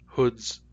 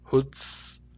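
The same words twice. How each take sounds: First: The word ends with a Z sound. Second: The word ends with an S sound. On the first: "These words have Z" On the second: "If I say these with S instead"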